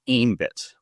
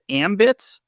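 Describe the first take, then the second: First: The first vowel sounds like 'aim'. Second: The first vowel sounds like 'am'. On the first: The speaker calls it wrong. "I've also heard it pronounced as Aimbit" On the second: The speaker calls it right. "is it Ambit?"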